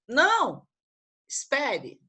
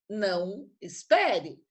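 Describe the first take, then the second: First: There is a pause after 'não'. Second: It is said without a pause.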